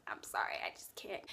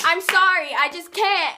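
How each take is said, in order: First: Tiny whispered refusal; hushed apology. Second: High, loud, hammed-up apology; loud apologetic refusal. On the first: Retold or imitated. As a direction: whisper a meek, retold apology. Acted refusal, hushed take. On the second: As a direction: blurt it out in mock panic. Acted refusal, loud take.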